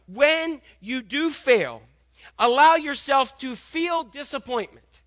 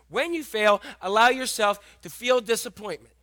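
First: Slow and louder, leaning on "When" and "allow"; slow emphatic. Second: Said in the usual way. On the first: Shown as a demonstration. Read it out slowly, pressing "allow". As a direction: pastor spelling out the thought to write down, slow and emphatic. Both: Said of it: "Write down and embrace this thought".

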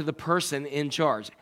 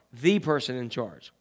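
First: Said in the usual way. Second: "the" said as "thee", set apart; stress on THE. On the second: Shown as a demonstration. Preacher retells the caller's demand for the top person, stressed THE. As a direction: lean on "the" as the one and only. Repeats phrase to stress the article.

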